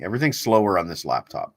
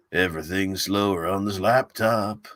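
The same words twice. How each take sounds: First: Said in the usual way. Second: Slowed-down joke read. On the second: Shown as a demonstration. Streamer mocking his laggy laptop, slowed drawn-out delivery. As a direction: drag every word out slowly, in mock slow motion.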